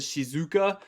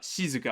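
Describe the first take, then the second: First: The second syllable is stressed. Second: The first syllable is higher in pitch. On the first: The speaker calls it wrong. "English speakers we like to put the emphasis on the second um the second syllable" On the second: The speaker calls it right. "I think it's actually higher on the she sound"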